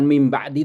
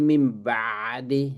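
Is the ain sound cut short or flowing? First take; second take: cut short; flowing. First: The ain sound is cut off abruptly. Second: The ain sound flows on with breath. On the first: The speaker calls it wrong. "Bukan mim ba'di" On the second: The speaker calls it right. "kalau ain mati itu di dialirkan"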